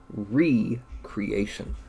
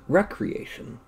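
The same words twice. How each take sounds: First: It is said with 're' split off clearly. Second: It is said as the single ordinary word. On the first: Making something again. The speaker calls it right. "That's right, tonight I'm going to be recreating" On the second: Leisure or play. The speaker calls it wrong. "not recreation"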